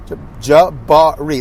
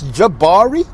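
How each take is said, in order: First: Jabari said slowly, starting J- then each syllable counted out; counting syllables. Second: Said in the usual way. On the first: Shown as a demonstration. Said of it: "That's three". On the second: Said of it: "how many syllables?".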